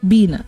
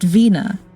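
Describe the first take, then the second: First: The name starts with a b sound, Filipino-accented. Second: The name starts with a v sound, unaccented.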